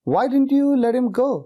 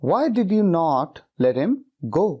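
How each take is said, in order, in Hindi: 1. did और not मिलकर didn't बन जाते हैं। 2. did और not अलग-अलग बोले जाते हैं। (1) "नॉट को डिड के साथ लगा देते हैं, कॉन्ट्रैक्ट कर देते हैं" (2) "इस तरह से लंबा सेंटेंस नहीं बोलते हैं"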